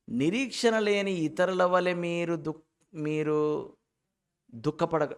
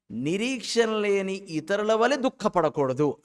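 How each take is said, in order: First: Slow reading broken up around "మీరు" and "దుఃఖపడ"; wrong pause. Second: Slow, raised reading carried through to "దుఃఖపడకూడదు"; no pause. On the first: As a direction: halt before "దుఃఖపడ" and cut it off. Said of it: "ఇక్కడ pause ఇవ్వకూడదు". ("దుఃఖపడ" ముందు ఆగి ముక్కలుగా చదవడం) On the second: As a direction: join "ఇతరుల వలె" straight onto "దుఃఖపడకూడదు". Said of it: "అక్కడ దాకా చదవాలి". ("దుఃఖపడకూడదు" దాకా ఆపకుండా చదవడం) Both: Shown as a demonstration.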